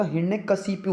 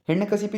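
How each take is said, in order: First: हिरण्यकशिपु ending in "-pu"; correct pronunciation. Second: हिरण्यकशिपु ending in "-pi"; wrong pronunciation. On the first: Teacher corrects it for students, careful pronunciation. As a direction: say हिरण्यकशिपु as "hirne-ka-si-pu". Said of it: "हिरण्यकशिपु होता है". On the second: Teacher shows students the wrong ending, mispronounced. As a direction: say हिरण्यकशिपु as "hirne-ka-si-pi". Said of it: "हिरण्यकशिपु नहीं होता". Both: Shown as a demonstration.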